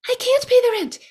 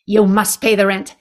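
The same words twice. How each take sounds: First: Very high pleading damsel voice; damsel in distress. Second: Lightly voiced melodrama villain, a bit louder; hint of a sneering landlord demanding rent; sneering panto villain. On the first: Pretend. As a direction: squeal it like a helpless victim. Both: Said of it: "this is the world's shortest play".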